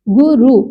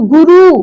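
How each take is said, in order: First: गुरु split as gu-ru, short ending; short final vowel. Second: गुरु with the final ū held long; long final vowel. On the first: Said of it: "छोटे ऊ की मात्रा रहेगा". (गुरु में छोटा उ) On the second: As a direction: stretch the end of गुरु: gurūū. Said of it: "यहाँ बड़े ऊ की". (गुरु में आख़िरी ऊ लंबा) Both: Shown as a demonstration.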